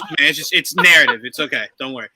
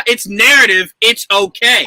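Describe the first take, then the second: First: Placating. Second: Firm mock placating, cutting in; insistent reassurance. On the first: Acted. Director calming an actor about his zombie's death, mock soothing. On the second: Director cutting off the zombie actor's protest, firmly placating. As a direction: shut down the objection with emphatic reassurance.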